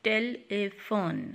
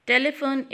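First: "telephone" in three separate sounds; split into syllables. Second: Said in the usual way. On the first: Shown as a demonstration. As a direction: break "telephone" into te, le, phone. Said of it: "example of the three syllable word". ("telephone" तीन टुकड़ों में अलग-अलग) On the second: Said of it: "is the three syllable word".

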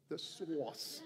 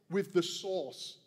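First: Laughing Boston accent on source, no r sound; The source with an r-less Boston vowel, chuckling. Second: Boston accent. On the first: Shown as a demonstration. Preacher playfully repeats the word in Boston accent. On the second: Real, not acted. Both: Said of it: "I have this Boston accent just saying".

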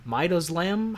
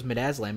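First: Midazolam misread as "MY-doze-lam", higher, questioning; imitated mispronunciation. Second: Said in the usual way. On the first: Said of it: "had a word they couldn't pronounce". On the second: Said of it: "And then the teacher goes".

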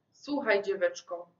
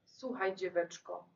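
First: Said in the usual way. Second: Put-on soft, hushed address to the girl; hushed call. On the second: A narrator's reading. Narrator softly calling the girl, hushed. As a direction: call her gently, under the breath.

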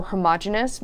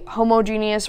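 First: "homogeneous" as huh-MAH-juh-nus; second variant of "homogeneous", stressed on MOJ; ho-MOJ-enous pronunciation. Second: "homogeneous" as HO-mo-JEE-nee-us; first variant of "homogeneous", long O and GEE; homo-GENIUS pronunciation. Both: Shown as a demonstration. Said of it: "said as homogeneous".

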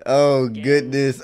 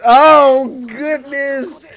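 First: Slow "Oh, goodness"; drawn-out dismay. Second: High, loud burst on "Oh"; worked-up exclamation. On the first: Reacting to the episode, slow drawn-out exclamation. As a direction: stretch out "Oh, goodness" at usual pitch. First take of a repeated reaction. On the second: Reacting to the episode, high worked-up outcry. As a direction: cry out "Oh, goodness", pitched way up. Repeats the reaction much more intensely. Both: Real, not acted.

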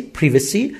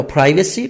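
First: پریوسی with a short i: priv-uh-see; پریوسی as priv-uh-see, short first vowel; British pronunciation. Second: پرایوسی with a long "eye" sound: pry-vuh-see; پرایوسی as pry-vuh-see, first vowel like "eye"; alternative pronunciation. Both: Shown as a demonstration. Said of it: "پریوسی به شما بگم".

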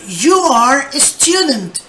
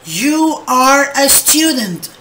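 First: Slow and clear for the class; slow model sentence. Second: Even slower, clear repetition. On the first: Teacher reading the example to students, slowly. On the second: Teacher repeating the example for students, very slowly. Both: Shown as a demonstration. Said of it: "Me dice".

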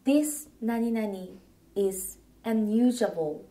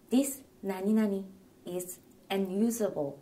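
First: Slow, careful English for learners; slow clear model phrase. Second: Said in the usual way. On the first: Shown as a demonstration. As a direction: say it slowly for the class. (ゆっくり丁寧な見本の発音) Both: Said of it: "この何々は使えません。".

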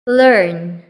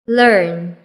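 No difference in how they are said.

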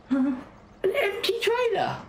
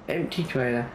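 First: High, slow, sneering mimicry; mock it in a silly high squeak. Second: Said in the usual way. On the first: Mocking the other driver.

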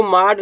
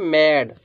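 First: माड with a long open "aa"; misreading of माड. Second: मैड with a front "ae" vowel, falling; correct reading of मैड. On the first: Teacher shows what not to read, माड with "aa". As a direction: say माड as "maad". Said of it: "इसको माड नहीं पढ़ेंगे". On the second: Teacher gives the right reading, मैड with "ae". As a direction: say मैड as English "mad". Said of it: "क्या करेंगे?". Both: Shown as a demonstration.

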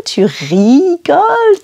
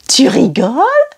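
First: "rigoles" with a long, raised "ri", then falling; stress on ri. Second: Said in the usual way. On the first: Shown as a demonstration. Teacher points out where the E is, stressed "ri" in "rigoles". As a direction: lean on the "ri" at the start of "rigoles". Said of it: "it's the beginning". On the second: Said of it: "are you kidding us?".

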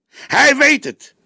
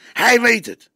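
First: Slower, much higher, louder repeat; young detective insisting harder, emphatic; more insistent. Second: Much higher, louder insistence; young detective insisting to his boss, insistent. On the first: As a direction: hammer it home. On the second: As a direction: press the point hard. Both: A narrator's reading.

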